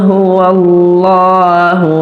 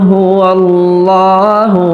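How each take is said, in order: The two takes are said the same way.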